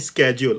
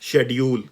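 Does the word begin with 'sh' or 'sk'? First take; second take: sk; sh. First: The word begins with an 'sk' sound. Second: The word begins with a 'sh' sound. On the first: This is the American pronunciation. "American version में इसको बोलते हैं" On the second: This is the British or Pakistani pronunciation. "British version बोलते हैं हम इसको"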